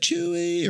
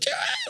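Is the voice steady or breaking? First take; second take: steady; breaking. First: The voice stays steady and controlled. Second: The voice cracks and breaks with emotion.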